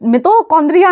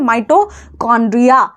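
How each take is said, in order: First: The first syllable sounds like 'mee'. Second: The first syllable sounds like 'my'. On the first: The speaker calls it wrong. "मितो मितोकॉन्ड्रिया नहीं बोलना है" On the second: The speaker calls it right. "इसका नाम होता है माइटोकॉन्ड्रिया"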